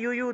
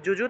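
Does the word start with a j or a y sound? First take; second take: y; j. First: Each syllable starts with a y sound. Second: Each syllable starts with a j sound. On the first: "অন্তস্থ জয়ের সংস্কৃত উচ্চারণ হলো ইয়" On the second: "যুযু থাকলে"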